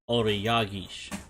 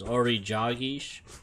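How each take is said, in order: First: The second word starts with a Y sound. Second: The second word starts with a J sound. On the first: "it's got that double J or Y sound for the J" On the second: "it's got that double J or Y sound for the J"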